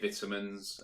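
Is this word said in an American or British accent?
British. It is said with a British accent. "We say vitamins"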